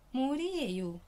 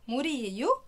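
First: It is said with a statement intonation. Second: It is said with a question intonation. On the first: This is water. "دي معناها إجابة" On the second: Is this water? "لاني قلتها بطريقة السؤال"

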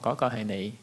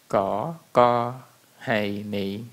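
First: The sentence is spoken at a quicker pace. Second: The sentence is spoken slowly and deliberately. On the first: This is how native speakers say it. "tốc độ sẽ nhanh hơn một chút" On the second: It is slowed down so learners can follow. "mình ở đây mình sẽ đọc rất chậm để các bạn theo kịp"

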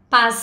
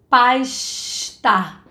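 First: The s is a plain hissing s sound. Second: The s sounds like a hushing sh, exaggerated. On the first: It sounds neutral, without a regional mark. The speaker calls it right. "O que a gente considera como sendo mais neutro seria pasta" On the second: It marks a Rio-style accent rather than a neutral one. The speaker calls it wrong. "Eu tô fazendo um chiado. É um outro som. É o som do C H"

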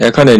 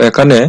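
Both takes have the same delivery.

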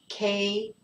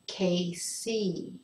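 First: The final E sound is short. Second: The final E sound is long. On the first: The speaker calls it wrong. "if I pronounce this without making the sound longer" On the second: The speaker calls it right. "remember to make the sound longer on the E"

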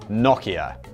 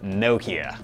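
First: It is said in a British accent. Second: It is said in an American accent.

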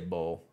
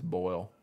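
First: The vowel is a plain 'oh' sound, like bowl. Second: The vowel glides from 'oh' to 'ee', like boil. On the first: The speaker calls it wrong. "I never say bowl" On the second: The speaker calls it right. "It's boil"

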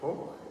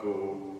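First: The name is said with Dutch pronunciation. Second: The name is said the plain English way. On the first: The speaker calls it right. "but Gogh, apparently is the Dutch pronunciation" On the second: The speaker calls it wrong. "not Go"

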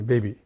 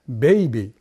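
First: The first vowel is a short plain 'e'. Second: The first vowel glides from 'e' to 'i'. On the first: A listener would not understand it. The speaker calls it wrong. "ベビーって言っても意味がわかんないんですね" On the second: A listener would understand it. The speaker calls it right. "ベじゃなくてベイに変化"

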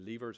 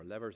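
First: The word is said in an Irish pronunciation. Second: The word is said in an American pronunciation.

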